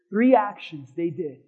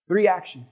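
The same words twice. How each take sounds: First: "Three actions" slowed, three stressed; slow emphatic count. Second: Said in the usual way. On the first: Shown as a demonstration. Pastor drilling the three actions for the church, slow and emphatic. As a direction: lean on Three and take it slowly. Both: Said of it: "say it with three".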